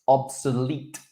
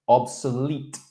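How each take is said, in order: The two takes are said the same way.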